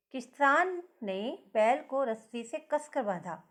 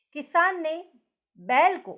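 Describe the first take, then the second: First: किसान said first and heavier; stress on किसान. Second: बैल hit louder than the rest; stress on बैल. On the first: Teacher showing pupils stress on किसान. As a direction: lean on किसान, the farmer. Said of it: "किसान पर ज़्यादा जोर दिया गया है". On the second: Teacher loudly stressing बैल for class. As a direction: punch बैल, the ox. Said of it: "बैल है जो बैल, उस पर ज़्यादा जोर". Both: Shown as a demonstration.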